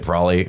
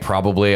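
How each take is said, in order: First: The syllables are reduced and run together. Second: All syllables are clearly enunciated. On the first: The speaker calls it wrong. "when you don't like enunciate that much" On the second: The speaker calls it right. "instead of saying probably"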